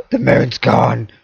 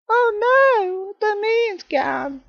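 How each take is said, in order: First: Said in the usual way. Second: Very high, slow falsetto wail; hammed-up falsetto grief over the moon; mock lament. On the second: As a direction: squeak it out like a cartoon despair.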